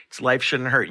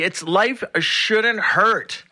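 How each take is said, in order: First: Said in the usual way. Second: Life Shouldn't Hurt spoken slowly with a punched Shouldn't; slow show name announcement. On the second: Acted.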